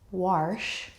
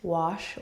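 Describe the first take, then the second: First: The word is said in a Texan accent. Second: The word is said in a standard accent.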